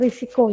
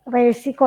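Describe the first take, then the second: First: The first vowel sounds like 'i'. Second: The first vowel sounds like 'e'. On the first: The speaker calls it right. "tapi risiko ya" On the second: The speaker calls it wrong. "bukan lagi berbicara resiko"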